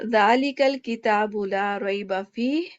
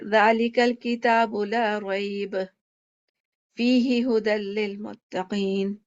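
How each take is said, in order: First: It stops after fihi, then continues. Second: It stops after rayb, then continues.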